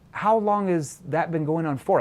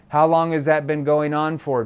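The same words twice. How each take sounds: First: It is asked in a puzzled, confused tone. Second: It is asked in a plain, matter-of-fact tone. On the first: The speaker calls it right. "Like I'm acting confused" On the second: The speaker calls it wrong. "You don't say"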